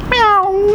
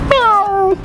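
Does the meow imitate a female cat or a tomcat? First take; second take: female cat; female cat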